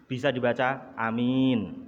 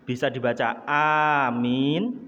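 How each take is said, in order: Both takes have the same delivery.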